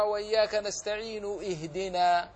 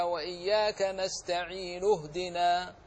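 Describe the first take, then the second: First: اهدنا with its hamza voiced after نستعين; wrong hamza. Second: نستعين flowing into اهدنا with the hamza dropped; correct hamza drop. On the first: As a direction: wrongly sound the hamza of اهدنا mid-verse. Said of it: "ولا يجوز". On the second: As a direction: join straight into the ه of اهدنا. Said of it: "إنما تقرأ هكذا". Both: Shown as a demonstration.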